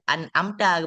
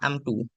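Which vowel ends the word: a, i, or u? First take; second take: a; u. First: The word ends with the vowel a. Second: The word ends with the vowel u. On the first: The speaker calls it right. "an amta baca" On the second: The speaker calls it wrong. "rumahkan tanyan"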